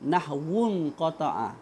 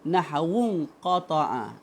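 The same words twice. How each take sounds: No difference in how they are said.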